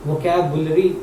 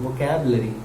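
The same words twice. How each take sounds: First: वोकैबुलरी said as vo-kya-bu-lri, with the u sounded; the mistaken reading, u pronounced clearly; wrong pronunciation. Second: वोकैबुलरी said as vo-ke-bler-i, u silent; the right reading, u dropped; correct pronunciation. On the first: Teacher showing students the wrong way, u sounded. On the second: Teacher giving students the right form, u silent. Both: Shown as a demonstration. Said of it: "इसको नहीं पढ़ते".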